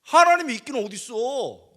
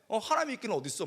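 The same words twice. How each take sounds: First: Furious challenge to God, yelled; angry teen yelling 하나님이 있기는 어딨어; angry shout. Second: 하나님이 있기는 어딨어 repeated at normal volume, grumbling; half-hearted angry mutter; muttered anger. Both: Retold or imitated. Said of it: "내가 화가 너무 나가지고".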